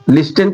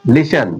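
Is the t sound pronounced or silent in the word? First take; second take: pronounced; silent. First: The t sound is pronounced in the middle. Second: The t sound is silent in the middle. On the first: The speaker calls it wrong. "इसे लिस्टन पढ़ते हैं ना कुछ लोग" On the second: The speaker calls it right. "तो इसमें टी silent हो जाता है"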